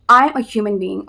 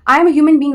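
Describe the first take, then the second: First: Said in the usual way. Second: Much higher and louder, hammering it home; exasperated loud repeat. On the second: Real, not acted. Vlogger to critics mocking her pauses, loud exasperated. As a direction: raise your voice, fed up with the critics.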